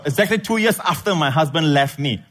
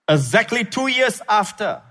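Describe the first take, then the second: First: One connected phrase, holding the comma until after "me"; pause moved after ME. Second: High rise-fall on YEARS, stop after "after"; misplaced pause after AFTER. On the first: Shown as a demonstration. Preacher correcting his misreading for the congregation, "after my husband left me" joined. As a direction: run "after my husband left me" together without a break. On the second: Real, not acted. Preacher misreading a letter aloud, phrase broken off after "after". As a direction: end the phrase at "after", high-pitched, as if complete.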